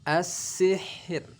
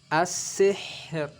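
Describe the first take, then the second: Both takes have the same delivery.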